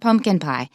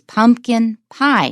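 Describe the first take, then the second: First: Only one word carries stress. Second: Both words carry stress. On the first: The speaker calls it wrong. "not pumpkin pie" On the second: The speaker calls it right. "we stress both of them"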